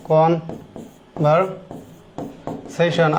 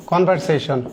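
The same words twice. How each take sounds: First: কনভারসেশন stretched very slowly and softly syllable by syllable; teacher drawing out কনভারসেশন for students, slowly; drawn-out conversation. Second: Said in the usual way. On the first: Shown as a demonstration. শিক্ষক কনভারসেশন ধীরে টেনে বলছেন. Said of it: "teacher drawing the word out". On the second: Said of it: "demo then stretched".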